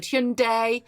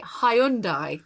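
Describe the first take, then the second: First: "Hyundai" said HYUN-day; two-syllable "Hyundai" ending in "day"; alternative pronunciation. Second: Anglicised "Hyundai", three syllables ending in "die"; UK pronunciation. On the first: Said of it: "and I've heard". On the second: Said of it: "most people would say". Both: Shown as a demonstration.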